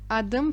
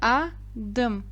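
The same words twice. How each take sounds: First: The word is said smoothly in one go. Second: The word is split with a pause between syllables.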